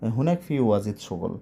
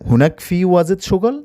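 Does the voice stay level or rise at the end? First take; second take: level; rises. First: The voice stays level to the end. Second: The voice gets a push upward at the end. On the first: It states that there is a lot of work there. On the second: It asks whether there is a lot of work there.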